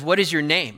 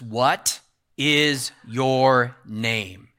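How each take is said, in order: First: It is said plainly, without extra force. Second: It is said with strong, forceful emphasis.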